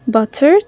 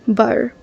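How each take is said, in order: First: The middle T is a crisp, clear T. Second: The middle T is a soft, D-like flap. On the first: "You can pronounce it with true T" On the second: "a flap T, which sounds similar to a very soft D"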